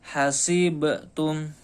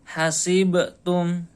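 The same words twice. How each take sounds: No difference in how they are said.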